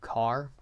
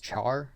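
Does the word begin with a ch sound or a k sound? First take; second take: k sound; ch sound. First: The word begins with a k sound. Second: The word begins with a ch sound. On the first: "Some I think do car" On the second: "I pronounce it as char"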